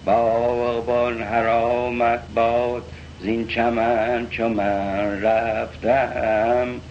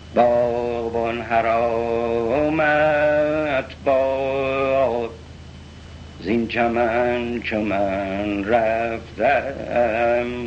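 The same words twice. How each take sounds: First: The melody stays flat throughout the line. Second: The melody changes throughout the line. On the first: The speaker calls it wrong. "یه نواخت نمیگه مثل اون" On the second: The speaker calls it right. "در همین مصرع اول تغییر آهنگ میده"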